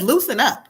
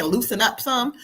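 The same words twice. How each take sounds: First: Said in the usual way. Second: Laughing. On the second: Retold or imitated. Relaying the spirit, laughing.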